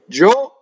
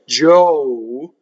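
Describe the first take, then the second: First: The vowel stops cleanly without a glide. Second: The vowel ends with a gliding sound. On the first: "in Italian, ... you just stop" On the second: "So in English"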